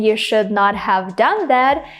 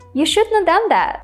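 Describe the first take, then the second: First: Should not is said as two full words. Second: Should not is contracted into one word. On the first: "Instead of saying" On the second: "I can just say"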